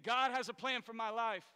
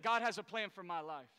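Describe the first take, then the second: First: Firm, louder declaration with conviction; said like you mean it. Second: Said in the usual way. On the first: Shown as a demonstration. Preacher urges the congregation to mean it, declared with conviction. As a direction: proclaim it as if you truly believe it. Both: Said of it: "You need to say it like you mean it".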